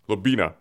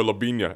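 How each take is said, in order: First: Said in the usual way. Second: "Lobina" said with an ny sound, lo-bee-nya; Spanish-style Lobina. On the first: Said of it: "Is it Lobina or Lobina?". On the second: Shown as a demonstration. Host testing a Spanish take on the bar's name, lo-bee-nya. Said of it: "Is there an inya over the N?".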